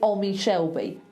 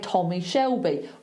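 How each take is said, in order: First: The opening T sound is dropped. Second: The opening T sound is pronounced. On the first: The speaker calls it wrong. "That would be weird" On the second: The speaker calls it right. "if you've got a T at the beginning of a word, you say it"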